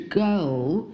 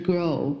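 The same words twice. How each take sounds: First: Put-on "girl" with the closing L fully sounded; correct final L. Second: Put-on "girl" with the closing L dropped; wrong final L. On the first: Teacher correcting the word, dark L completed in "girl". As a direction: lift the tongue tip to finish "girl" on L. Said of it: "是girl". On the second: Teacher showing what to avoid, "girl" without its L. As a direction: end "girl" on a rounded vowel, tongue down. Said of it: "不是girl". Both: Shown as a demonstration.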